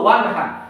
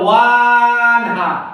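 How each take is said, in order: First: The first vowel is said short and quick. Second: The first vowel is stretched long. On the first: The speaker calls it right. "আমরা বলবো ওয়ান হা ... ওয়ান বলবো তাড়াতাড়ি" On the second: The speaker calls it wrong. "হওয়ার কথা হলো ওয়ান হা, কিন্তু বলবো না"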